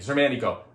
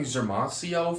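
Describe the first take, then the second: First: The name ends with a 'nico' sound. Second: The name ends with a 'sio' sound. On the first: The speaker calls it right. "but it's Zermanico, I think" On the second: The speaker calls it wrong. "I've always been saying Zermasio for some reason"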